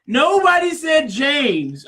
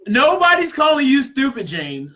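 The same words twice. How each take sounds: First: Slow, louder and higher; exasperated shout at James in an argument; heated shout. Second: Heated retort. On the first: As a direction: shout him down, word by word. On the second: Arguing with James. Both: Real, not acted.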